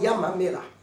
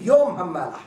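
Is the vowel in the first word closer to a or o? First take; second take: a; o. First: The first vowel is pronounced like a. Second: The first vowel is pronounced like o. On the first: The speaker calls it wrong. "ולא ים המלח" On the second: The speaker calls it right. "אנחנו אומרים יום המלח"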